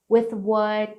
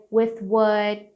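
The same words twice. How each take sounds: The two takes are said the same way.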